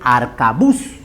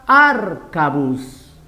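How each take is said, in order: First: The stress falls on the last syllable. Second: The stress falls before the last syllable. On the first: The speaker calls it right. "La forma correcta es arcabuz. Por lo tanto, su última sílaba es tónica" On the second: The speaker calls it wrong. "Si pongo acá"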